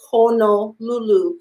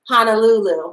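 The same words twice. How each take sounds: First: The first vowels sound like 'oh'. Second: The first vowels sound like 'ah'. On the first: The speaker calls it right. "I need to say Honolulu" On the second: The speaker calls it wrong. "which is how a lot of uh, English speakers might say it"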